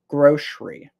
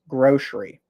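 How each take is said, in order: First: The middle consonant is an SH sound. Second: The middle consonant is an SH sound.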